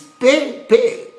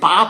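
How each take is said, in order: First: Each vowel sounds like the letter name 'ay'. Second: Each vowel sounds like an open 'ah'. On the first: The letters are read by their names. "If it's A, it's pay, pay" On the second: The word is read the usual way. "But you now telling me it's Papa"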